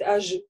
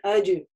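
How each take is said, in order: First: The middle consonant is a soft zh sound. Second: The middle consonant is a voiced dj sound. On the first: The speaker calls it wrong. "не надо говорить ажи" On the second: The speaker calls it right. "на сукуне аджи"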